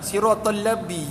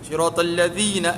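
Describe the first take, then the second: First: The second word is said as 'labi'. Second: The second word is said as 'ladzina'. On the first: The speaker calls it wrong. "siratal labi jadi dah" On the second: The speaker calls it right. "Jadi mana?"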